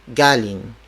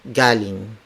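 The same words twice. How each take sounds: The two takes are said the same way.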